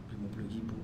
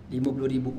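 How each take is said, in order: First: "Lima puluh ribu?" softer, rising in disbelief; disbelieving echo. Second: Said in the usual way. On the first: Retold or imitated. Preacher echoes friend's fifty thousand, stunned softly.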